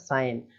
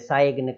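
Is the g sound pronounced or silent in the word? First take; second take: silent; pronounced. First: No g sound is pronounced before the n. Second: A g sound is pronounced before the n. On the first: The speaker calls it right. "Direct बोलते हैं केवल साइन" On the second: The speaker calls it wrong. "साइग्न इस तरीके से नहीं बोलते हैं"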